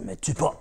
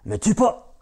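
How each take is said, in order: First: Mysterious voice. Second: Voix lointaine, plus aiguë; eerie voice. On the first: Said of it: "cette voix". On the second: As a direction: une voix étrange venue de nulle part, aiguë. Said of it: "Encore cette voix". (la vache supplie Jack, voix lointaine et aiguë) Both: Acted.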